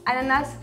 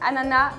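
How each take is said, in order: First: The final S sound is pronounced. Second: The final S sound is silent. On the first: "ananas avec un S" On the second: "ananas sans S"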